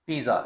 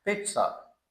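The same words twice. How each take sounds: First: पिज़्ज़ा said "PEE-za" with a plain z; पिज़्ज़ा with a simple "z" sound; पिज़्ज़ा the usual local way; wrong pizza. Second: पिज़्ज़ा said higher as "PIT-sa", a t-s blend; पिज़्ज़ा the Italian way, "peet-sa"; Italian pizza. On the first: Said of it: "इसकी correct pronunciation है पिज़्ज़ा". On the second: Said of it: "ये टा और सा sound मिली जुली". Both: Shown as a demonstration.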